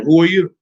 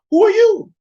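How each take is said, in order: First: Said in the usual way. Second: High, loud incredulous demand; old Isaac demanding. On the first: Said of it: "said unto him". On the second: Retold or imitated. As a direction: throw the question back at him, much higher. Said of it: "Look what Isaac said to him".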